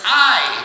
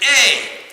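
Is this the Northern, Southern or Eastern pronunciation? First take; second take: Northern; Southern. First: It is said the Northern way, as in aisle. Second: It is said the Southern way, like A.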